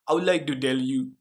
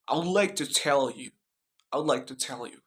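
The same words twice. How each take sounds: First: Indian accent, T turned to D. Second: American accent with a clear T in "tell". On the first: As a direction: imitate an Indian accent, "tell" said as "dell". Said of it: "Indian accent". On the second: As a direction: demonstrate an American accent, crisp T. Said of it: "The example in American accent". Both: Shown as a demonstration.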